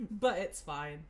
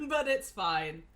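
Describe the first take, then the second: First: Said in the usual way. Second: Laughing it off. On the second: Real, not acted. Laughing off embarrassment.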